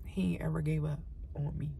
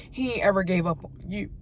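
First: Hushed, breathy confession; softly whispered gratitude. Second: Said in the usual way. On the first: Real, not acted. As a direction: whisper it like a secret prayer. Whispered testimony to God.

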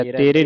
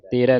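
First: ਤੇਰੇ ending in close "e"; wrong reading. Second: ਤੇਰਾ ending in open "ai", "terai"; correct reading. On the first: Teacher shows the misreading to avoid, "tere". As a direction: say "te-re" with a narrow final e. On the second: Teacher models the word for students, "terai". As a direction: open the final vowel to "ai". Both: Shown as a demonstration. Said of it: "ਤੇਰੇ ਨਹੀਂ ਪੜ੍ਹਨਾ".

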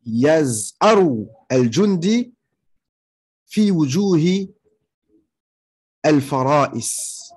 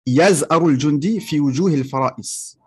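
First: Very slow, word-by-word Arabic example; slow dictation. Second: Said in the usual way. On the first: Shown as a demonstration. Teacher giving students an Arabic example about a roaring soldier, slow dictation. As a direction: draw out each word with long pauses between phrases.

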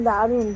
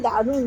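Both takes have the same delivery.

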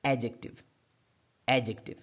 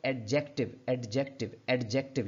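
First: Silent "d" in एडजेक्टिव, stress at the front; correct silent D. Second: Sounded "d" in एडजेक्टिव, leaning on JEK; wrong ad-JEK-tiv with the D voiced in एडजेक्टिव; mispronounced एडजेक्टिव. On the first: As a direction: say एडजेक्टिव as AJ-ik-tiv. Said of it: "इसकी सही pronunciation क्या होगी". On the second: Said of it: "गलत हम इसको डीज pronounce कर जाते हैं". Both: Shown as a demonstration.

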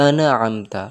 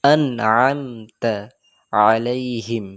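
First: আনআমতা with a bounce on the ন, the mistake; আনআমতা with a wrong qalqala echo; আনআমতা bounced, as the error; wrong pronunciation. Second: আনআমতা very slowly with no bounce; আনআমতা smooth and unbounced; slow, clean আনআমতা; correct pronunciation. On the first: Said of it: "আন, এটা ভুল". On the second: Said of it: "এই ধরনের কলকলা দেওয়া ভুল". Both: Shown as a demonstration.

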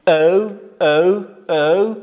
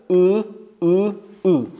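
First: Slow, loud "او" gliding as "ow"; seventh vowel, "ow". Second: "او" as a steady drawn-out "oo"; eighth vowel, "oo". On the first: Teacher drills seventh sound, drawn-out "ow" on "او". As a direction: glide each "او" into a w. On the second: Teacher drills eighth sound, long "oo" on "او". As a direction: keep "او" rounded and pure. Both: Shown as a demonstration.

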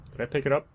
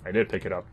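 First: "Did I pick it up?" higher with a rising end; unsure, rising question on "pick it up". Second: "I did pick it up" lower, falling after DID; settled statement stressing "did"; resigned confirmation. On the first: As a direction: ask "pick it up" as a real question, pitch lifting. Asks, then answers himself. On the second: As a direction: lean on "did", then let the pitch fall. Answers own question. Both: Real, not acted.

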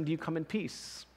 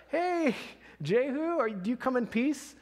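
First: Softer, the king asking under his breath; the king facing Jehu, asking quietly; quiet question. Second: Pitched higher, calling up the road to the rider; a guard shouting out to Jehu, higher and urgent; messenger calling out. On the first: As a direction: ask it hushed and uneasy. King asks Jehu nervously. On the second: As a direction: hail the approaching rider from a distance, a bit anxious. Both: Acted.

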